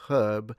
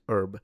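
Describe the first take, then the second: First: The word starts with an audible h sound. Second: The word starts directly with the vowel. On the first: "in British English, you do say herb" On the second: "that H is already gone in American English"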